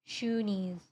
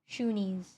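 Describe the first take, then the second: No difference in how they are said.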